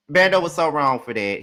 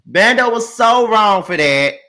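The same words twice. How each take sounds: First: Said in the usual way. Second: Laughing through it, slowed and louder. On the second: Real, not acted. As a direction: laugh it out, slow and amused. Laughing take of the repeated line.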